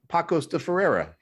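The name is read with American English sounds. The speaker calls it wrong. "like a typical American, I said, ... just what it looks like"

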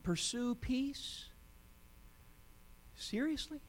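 It is said as two rising questions.

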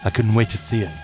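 It is said in a put-on character voice.

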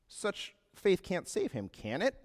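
It ends with a rising questioning lilt.

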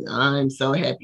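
It sounds flat and unconvincing.

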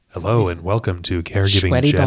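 It is spoken in a calm public-radio announcer style. "the whole episode in NPR style"

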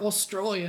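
The word is said in an Australian accent. "There's like only a few words that I can do"

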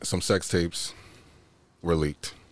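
It is said in a put-on seductive voice.

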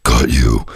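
It is said in a booming, wicked voice.

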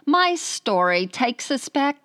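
It is spoken in an Australian accent.

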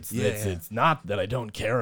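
It is said in a deep voice from the chest.

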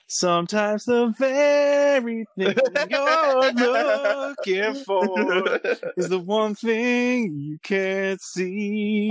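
It is said in Billy's character voice.

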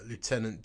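It is said the American way, like loo-tenant. "I just did the Americanization there"

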